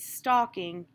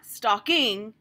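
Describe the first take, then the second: First: The stress is on the first syllable. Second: The stress is on the second syllable. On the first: The speaker calls it right. "it's stalking and shocking. And that gives it that sort of softer feel" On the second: The speaker calls it wrong. "It's not stalking"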